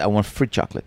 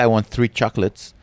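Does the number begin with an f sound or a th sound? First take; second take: f; th. First: The number begins with an f sound. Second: The number begins with a th sound. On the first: The speaker calls it wrong. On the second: The speaker calls it right.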